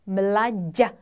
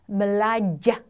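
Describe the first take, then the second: Both takes have the same delivery.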